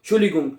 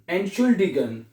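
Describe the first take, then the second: First: It starts with 'shuli' and drops the opening 'ent'. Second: It starts with a clear 'ent' sound before 'shuldigun'. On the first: The speaker calls it wrong. "लेकिन इसको हम सही पढ़ते नहीं है, शुली गुंग शुली गुंग करते रहते हैं" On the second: The speaker calls it right. "ये लफ्ज आपने ऐसे बोलना है"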